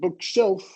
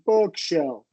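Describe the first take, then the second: First: The stress is not on the first syllable. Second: The stress is on the first syllable. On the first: The speaker calls it wrong. "you're not saying bookshelf" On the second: The speaker calls it right. "stress on the first syllable. Really short"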